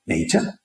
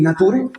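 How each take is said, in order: First: "nature" said as NEI-cha; "nature" with ei, ch and final a; pronunciation as heard. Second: "nature" read as Spanish na-TU-re; "nature" with a pure a, tapped r and final e; spelling pronunciation. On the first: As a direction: say "nature" by ear, English-like, as neicha. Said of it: "Claro, te dicen". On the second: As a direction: say "nature" letter by letter, Spanish-style. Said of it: "Tú vas a poner nature". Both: Shown as a demonstration.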